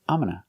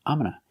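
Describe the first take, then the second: No difference in how they are said.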